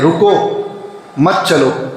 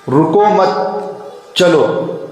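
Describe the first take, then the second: First: The pause comes after 'ruko'. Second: The pause comes after 'mat'.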